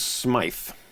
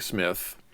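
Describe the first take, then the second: First: The vowel is long, as in 'my'. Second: The vowel is short, as in 'myth'. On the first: The speaker calls it right. "It is Smythe" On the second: The speaker calls it wrong. "I was excused for saying Smith, but I will go on record as saying it was incorrect"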